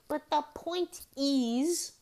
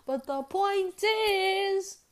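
First: Drawn-out emphasis. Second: But the point is, stretched very slow and high; drawn-out emphasis. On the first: Repeats the same setup. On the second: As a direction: drag out the point is as a big emphatic setup. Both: Real, not acted.

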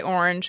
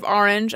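First: "orange" opening on an "or" vowel; own pronunciation. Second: "orange" opening on an "ah" vowel; New York pronunciation. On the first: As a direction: say "orange" like "OR-inj". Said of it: "I say orange". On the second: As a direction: say "orange" like "AHR-inj". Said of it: "I say, instead of orange". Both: Shown as a demonstration.

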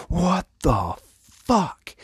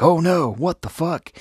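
First: Very high, slow comic disbelief; drawn-out mock horror. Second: High-pitched comic alarm at normal pace; hammed-up shock, pitch leaping right up; mock horrified panic. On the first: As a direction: stretch every word in hammed-up shock. Acted shock on opening his eyes. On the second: Acted horror at the kiss.

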